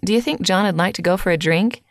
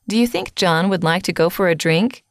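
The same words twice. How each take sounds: First: The small words use reduced, weak vowels. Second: The small words keep their full vowels. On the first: "this could be pronounced" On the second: "Look at the sentence"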